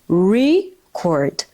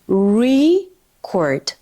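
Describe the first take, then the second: The two takes are said the same way.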